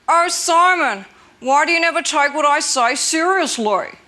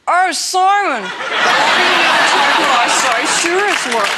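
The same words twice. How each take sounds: First: It is said with no emotion. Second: It is said with sadness.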